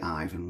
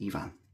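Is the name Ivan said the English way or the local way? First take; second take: English; local. First: Ivan is said with an English pronunciation. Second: Ivan is said with a non-English, local pronunciation. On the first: "in English it'd be Ivan" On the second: "But it's Ivan"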